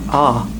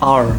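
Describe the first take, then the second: First: The letter ends in an open ah sound. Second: The letter ends with a clear r sound. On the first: "Kalau British cuma A. R-nya tuh nggak ada" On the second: "Kalau American kan R"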